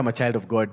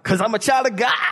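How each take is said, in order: First: It is said plainly, without a preacher voice. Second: It is said in an exaggerated preacher voice.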